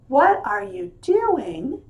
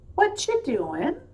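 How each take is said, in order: First: Every word is pronounced clearly and fully. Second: The word 'are' is dropped in relaxed speech.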